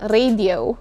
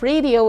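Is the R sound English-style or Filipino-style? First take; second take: Filipino-style; English-style. First: The R is said the Filipino way. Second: The R is said the English way. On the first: The speaker calls it wrong. "and not radio" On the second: The speaker calls it right. "The last word is radio"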